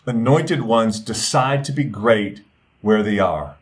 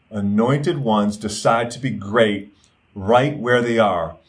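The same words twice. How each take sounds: First: Said in the usual way. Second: Slower, each word set apart; slow emphatic repeat. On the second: Shown as a demonstration. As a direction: repeat it slowly so it sinks in.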